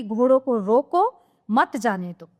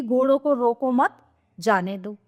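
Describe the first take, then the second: First: "रोको" as a command, a break, then "मत जाने दो" together; pause after रोको. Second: "रोको मत" as one phrase, a break, then "जाने दो"; pause after मत. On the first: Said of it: "यह अर्थ भी ले सकता है". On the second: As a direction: hold the comma until after "मत", then let "जाने दो" fall. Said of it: "एक कॉमा, एक विराम चिन्ह से". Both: Shown as a demonstration.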